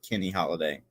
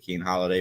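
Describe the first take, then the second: First: The first name is said as Kenny. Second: The first name is said as Keen. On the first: The speaker calls it right. "but Kenny Holiday" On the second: The speaker calls it wrong. "not actually Keen Holiday"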